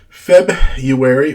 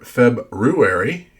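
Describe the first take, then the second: First: The word is said casually, first r dropped. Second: The word is said carefully, first r pronounced. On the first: The speaker calls it wrong. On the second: The speaker calls it right.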